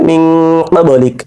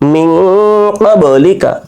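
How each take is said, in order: First: The phrase ends on a k sound. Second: The phrase ends on a short a vowel. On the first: The reading stops at this word. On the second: The reading continues without stopping.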